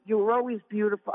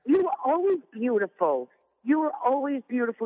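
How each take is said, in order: First: Quick, lightly voiced husband line, a bit higher; husband quoted. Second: Mock husband. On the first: Wife quoting her husband's compliment, lightly imitating him. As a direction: rattle off his compliment. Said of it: "He goes". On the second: Wife mocking her husband's repeated compliment, hammed-up and doting. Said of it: "But it was like".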